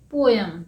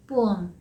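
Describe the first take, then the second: First: "पोएम" as PO-yum, with a y glide; common mispronunciation. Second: "पोएम" as POH-um, no y glide; correct pronunciation. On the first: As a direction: put a "y" inside "पोएम", PO-yum. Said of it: "लेकिन हम इसे क्या बोलते थे?". ("पोएम" का आम गलत उच्चारण, पो-यम) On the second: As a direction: run "पोएम" together smoothly as POH-um. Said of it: "लेकिन इसका सही प्रोनाउंसिएशन है". ("पोएम" का सही उच्चारण, पो-अम, बिना य के) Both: Shown as a demonstration.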